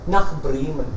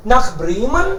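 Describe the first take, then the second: First: "Nach Bremen" low and falling, no question; low falling statement tune; flat statement. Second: Bremen rising at the end as a question; surprised question, rising on Bremen; question intonation. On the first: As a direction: say "Nach Bremen" as a plain statement dropping at the end. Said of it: "लगना चाहिए कि ये question है". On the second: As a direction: ask "Nach Bremen?" with a clear upward lift. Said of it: "question mark भी तो पढ़ना होता है". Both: Shown as a demonstration.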